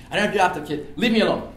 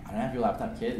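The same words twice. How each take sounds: First: A bit louder, annoyed retort; mild imitated irritation; irritated denial. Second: Said in the usual way. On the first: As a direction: push him away with the words. Thief denies again, irritated.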